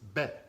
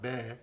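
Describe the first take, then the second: First: The vowel is short and sharp. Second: The vowel is drawn out long. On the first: The speaker calls it right. "It's very sharp" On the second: The speaker calls it wrong. "You don't extend it. It's not be"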